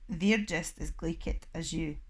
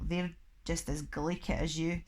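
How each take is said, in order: First: It is said loudly. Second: It is said at normal volume.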